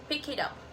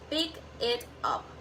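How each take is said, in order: First: The final consonants link into the next words. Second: Each word is said clearly and separately.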